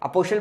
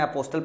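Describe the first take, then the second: First: The t sound in the middle is silent. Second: The t sound in the middle is pronounced. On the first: "अपोस्टल बोलते हैं इसको, टी silent रहता है" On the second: "मैं अपने समय में अपोस्टल पढ़ता था ताकि स्पेलिंग याद हो"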